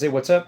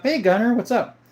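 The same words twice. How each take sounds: First: Said in the usual way. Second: Bright greeting pitched well up; cheery greeting. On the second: Real, not acted. Streamer greets the chatter Gunner back, pitched high and cheery. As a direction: call out a happy hello to the viewer.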